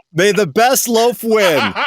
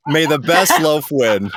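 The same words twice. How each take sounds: First: Slow, higher and louder, ceremonial; grand proclamation. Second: Said in the usual way. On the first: Acted. Host declaring a winner, slow grand proclamation. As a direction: announce it like a royal toast.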